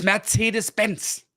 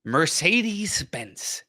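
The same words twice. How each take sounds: First: Higher "Mercedes-Benz" as "mair-TSAY-des"; German pronunciation. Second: Slow, higher "Mercedes-Benz" as "mer-SAY-deez"; American pronunciation. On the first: German correcting the American car name, German pronunciation. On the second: German quoting the American name before correcting it, American pronunciation. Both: Shown as a demonstration. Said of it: "It's Mercedes-Benz".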